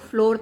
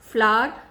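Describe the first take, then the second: First: The vowel sounds like the one in 'floor'. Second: The vowel sounds like the one in 'flower'. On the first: The speaker calls it wrong. "कई लोग उसको फ्लोर तक बोलते हैं, which is wrong" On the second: The speaker calls it right. "फ्लावर वो बोल सकते हैं"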